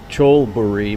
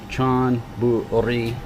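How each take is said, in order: First: The first syllable ends in an L sound. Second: The first syllable ends in an N sound. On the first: This is how the Thai letter looks when read literally. The speaker calls it wrong. "it would sound like Cholburi" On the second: This is how the name is actually pronounced. The speaker calls it right. "it's pronounced with an N"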